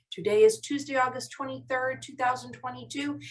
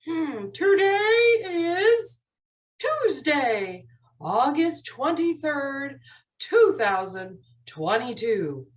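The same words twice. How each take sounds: First: Said in the usual way. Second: Slow, drawn-out date announcement; slow model recitation. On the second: Shown as a demonstration. Teacher shows helper how to say the calendar, slowly. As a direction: stretch out each part of the date with clear pauses. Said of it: "They're going to get to say this".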